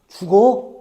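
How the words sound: It is said in a worried tone. The speaker is concerned about the listener. "걱정이라는 마음이 느껴져요"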